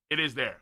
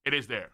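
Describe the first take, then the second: No difference in how they are said.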